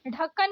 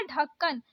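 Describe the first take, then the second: First: ढक्कन opening on flapped ढ़; wrong flapped ढ़. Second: ढक्कन opening on aspirated DH; correct stopped ढ. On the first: Teacher showing learners the mistake, flapped ढक्कन. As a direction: flick into ढक्कन. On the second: Teacher correcting learners, stopped ढक्कन. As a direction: start ढक्कन with firm ढ. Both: Shown as a demonstration. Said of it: "नहीं होता".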